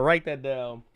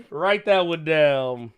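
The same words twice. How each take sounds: First: Said in the usual way. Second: Slow, spelled-out "write that one down"; slow emphatic. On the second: Shown as a demonstration. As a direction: say it slowly like dictating.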